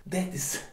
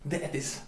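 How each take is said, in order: Both takes have the same delivery.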